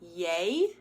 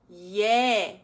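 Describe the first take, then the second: First: The vowel glides toward another sound. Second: The vowel stays steady without gliding. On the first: The speaker calls it wrong. "I'm not swinging it. I'm not saying yay" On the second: The speaker calls it right. "I'm just going yeah"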